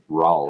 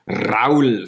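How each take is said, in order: First: The R at the start is not rolled. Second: The R at the start is rolled. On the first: This is the American version of the name. "we're going to go with the American version" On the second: This is the original Swiss pronunciation of the name. "you have to roll the R"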